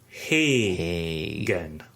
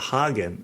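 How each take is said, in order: First: The first syllable sounds like 'hay'. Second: The first syllable sounds like 'hah'. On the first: The speaker calls it right. "So it's actually pronounced Hagen" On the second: The speaker calls it wrong. "rather than like the Hagen in Haagen-Dazs"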